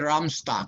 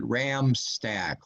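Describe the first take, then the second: First: The second syllable sounds like 'stock'. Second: The second syllable sounds like 'stack'. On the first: The original German way of saying the name. "If we were still in Germany, I would be at Ramstock" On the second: The way the family has said the name in recent generations. "in the last hundred years, we pronounced it ram stack, like a like a stack of rams"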